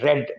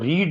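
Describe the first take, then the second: First: The vowel is a short 'e' sound. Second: The vowel is a long 'ee' sound. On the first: The speaker calls it right. "बल्कि रेड बोलेंगे" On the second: The speaker calls it wrong. "रीड नहीं बोलेंगे"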